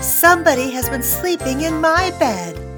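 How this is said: A medium-pitched, grumbling voice says it. The middle-sized character is speaking. "In her medium-sized voice, she grumbled"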